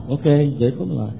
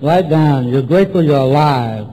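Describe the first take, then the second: First: Quick compliant echo; writing it down. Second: Measured sponsor's dictation; dictating. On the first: Newcomer taking down sponsor's dictation, echoing quickly. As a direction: repeat it rapidly as you jot it. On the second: Sponsor dictating a gratitude list to newcomer, dictating firmly. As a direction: dictate it firmly for someone writing. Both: Retold or imitated. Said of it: "you write and I'll dictate".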